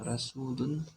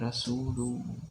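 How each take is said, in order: First: The word ends with a clear n sound. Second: The word ends with a merged m sound. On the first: The speaker calls it wrong. "tidak dibaca rasulun" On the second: The speaker calls it right. "tapi rasulum, dia bergabung ke huruf setelahnya yaitu mim"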